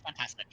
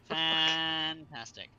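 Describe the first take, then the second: First: Said in the usual way. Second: Slow, sarcastic fantastic; drawn-out sarcastic. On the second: Real, not acted. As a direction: stretch it out, dripping with sarcasm. Repeated slowly after a mishap.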